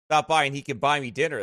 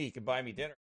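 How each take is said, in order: First: Said in the usual way. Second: Much softer, muttered aside; quiet aside. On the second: Shown as a demonstration. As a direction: drop the voice for a joke aside.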